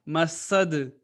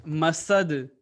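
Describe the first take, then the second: The two takes are said the same way.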